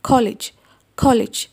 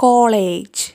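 First: കോളേജ് said ko-lij with a plain English l; correct pronunciation. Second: കോളേജ് said kolej with a Malayalam ള sound; Malayalam-style pronunciation. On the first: Teacher modelling the English കോളേജ്. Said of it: "ഇംഗ്ലീഷിൽ പറയുന്നത് കോളേജ് എന്നാണ്". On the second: Teacher showing the Malayalam-style കോളേജ്. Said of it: "കോളേജ് എന്നാണല്ലേ പറയാ". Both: Shown as a demonstration.

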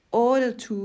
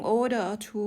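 First: "โอเดอร์ทู" run together with no ออ in the middle; linking vowel dropped. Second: "โอเดอร์ออทู" with the middle ออ sounded; "โอเดอร์ออทู" in full, linking vowel heard; full linking syllable. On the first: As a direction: skip the ออ and go straight to ทู in "โอเดอร์ทู". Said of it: "มันจะออกแค่". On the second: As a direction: say all parts of "โอเดอร์ออทู", ออ included. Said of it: "มันจะไม่ออกเสียงออให้เราได้ยิน". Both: Shown as a demonstration.

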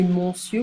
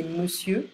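First: Monsieur with an open "mon" like mon, the wrong way. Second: Monsieur with a short weak "me", like me-sieur; right monsieur. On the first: Teacher shows the wrong way to say it, open mon in monsieur. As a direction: say monsieur as mon-sieur, first vowel like in mon. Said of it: "We don't say monsieur". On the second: Teacher gives students the right way, me-sieur in monsieur. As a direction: say monsieur as me-sieur, first syllable barely there. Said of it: "we say monsieur". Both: Shown as a demonstration.

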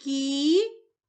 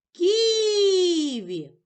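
First: Кі-ві said as two separate beats with a break; split into syllables. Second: Ківі called out long, louder and higher, leaning on Кі; calling the word out. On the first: Teacher dividing the word for a child, syllable by syllable. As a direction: tap out Кі and ві apart. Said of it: "Поділимо слово на склади". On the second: Teacher calling the word to find its stress, loud and high. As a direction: call Ківі across the room to find the stress. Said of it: "Покличемо слово". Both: Shown as a demonstration.

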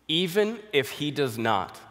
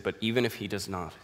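First: "even if he does not" slower and louder, "even" raised high; emphatic repeat. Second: Said in the usual way. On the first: Acted.

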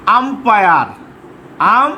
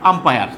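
First: umpire drawn out in two parts, আম and পায়ার; slow dictation. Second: Said in the usual way. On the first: Shown as a demonstration. Teacher dictating umpire to pupils, slow and deliberate. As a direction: say umpire slowly and fully voiced.

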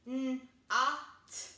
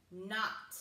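First: N-O-T as a hummed N, short vowel, then T; chopped-up sounds. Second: Said in the usual way. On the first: Shown as a demonstration. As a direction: break N-O-T into separate sounds. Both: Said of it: "and chop it up".

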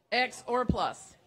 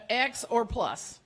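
No difference in how they are said.

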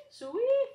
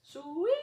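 First: Much higher, louder hog call rising at the end; second call, pushed to a full holler; calling pigs louder. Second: High, loud hog call with a rising end; first pig call, already loud. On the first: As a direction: holler it even stronger across the yard. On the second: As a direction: call the hogs in from afar. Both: Acted. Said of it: "Farmer called".

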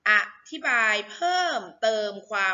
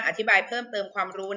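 First: Model reading. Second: Said in the usual way. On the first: Shown as a demonstration. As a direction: stretch out each syllable of "อธิบายเพิ่มเติมความรู้". Model reading for pupils to repeat.

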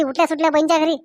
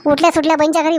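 First: Said in the usual way. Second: उठल्या stressed, whole phrase sharp; emphatic scold. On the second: Acted. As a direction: hit उठल्या सुटल्या hard. Wife scolding, repeats phrase. (उठल्या सुटल्या वर जोर देऊन रागाने)

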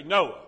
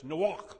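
First: Said in the usual way. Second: Noach said "no-AHCH" with a throaty German-like ach at the end; Hebrew Noach. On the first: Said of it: "But it's Noach". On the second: Shown as a demonstration. Pastor showing the class how Noach sounds in Hebrew, with a throaty ach. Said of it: "We say Noah".

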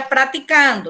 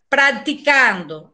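First: Praticando with no C, pra-ti-kando; Portuguese praticando. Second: Practicando said slowly with the C sounded, prak-ti-kando; Spanish practicando. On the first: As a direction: drop the C in praticando. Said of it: "no português seria praticando". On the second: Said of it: "aí tem um C". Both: Shown as a demonstration.

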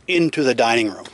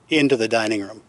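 No difference in how they are said.

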